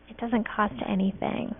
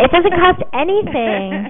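First: It is said at normal, softer volume. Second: It is said louder.

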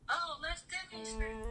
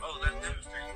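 First: It is said in a man-like voice. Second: It is said in a woman-like voice.

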